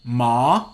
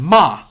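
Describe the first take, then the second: First: The pitch rises upward through the syllable. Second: The pitch falls from high to low. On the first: "the uprising, high rising tone" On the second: "like from a high to low"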